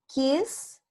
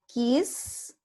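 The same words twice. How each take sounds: Both takes have the same delivery.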